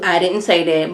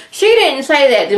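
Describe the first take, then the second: First: Said in the usual way. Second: Didn't punched high and loud; stress on didn't. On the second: Shown as a demonstration. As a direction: lean hard on didn't, higher and louder.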